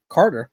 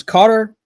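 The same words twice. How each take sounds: First: Said in the usual way. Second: Accidental Boston accent, higher and louder; high, loud call with a slip into Boston. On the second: Real, not acted. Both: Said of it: "saying it like I'm from Boston".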